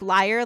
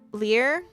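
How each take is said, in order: First: The vowel sounds like the one in 'fire'. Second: The vowel sounds like the one in 'fear'. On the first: "like the um the instrument" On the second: "I've been saying like"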